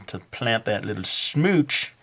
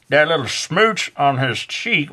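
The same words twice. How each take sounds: First: Said in the usual way. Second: A sudden higher, drawn-out Southern drawl; Southern accent. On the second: Pretend. Art teacher jokingly narrating the kiss, in a Southern accent. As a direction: slide into a playful Southern accent on smooch. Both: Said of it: "am I doing, like, a Southern accent?".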